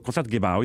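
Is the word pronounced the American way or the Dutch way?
American. The word is said with an American pronunciation. "like how you would say it commonly in America"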